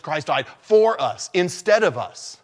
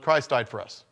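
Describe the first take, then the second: First: "for" pressed and held, slowed, falling after; stress on for. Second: Said in the usual way. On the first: Shown as a demonstration. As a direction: lean hard on "for", the rest slow. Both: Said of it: "Emphasis on the word "for".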